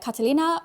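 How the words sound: The name is said with an English pronunciation. "which I am pronouncing incorrectly"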